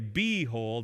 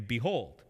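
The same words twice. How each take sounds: First: The stress is on the first syllable. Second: The stress is on the second syllable. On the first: The speaker calls it wrong. "We don't say behold" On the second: The speaker calls it right. "we say behold"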